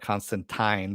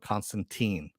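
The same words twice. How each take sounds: First: The name is said the British way. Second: The name is said the common, non-British way. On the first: The speaker calls it wrong. "maybe the British call it Constantine" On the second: The speaker calls it right. "the rest of the world calls it Constantine"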